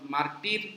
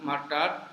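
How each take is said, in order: First: The last syllable has an 'ee' vowel. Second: The last syllable has a weak 'uh' vowel. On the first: The speaker calls it wrong. "মার not মার্টির এরকম না" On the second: The speaker calls it right. "মার্টার উচ্চারণটা খেয়াল করবেন"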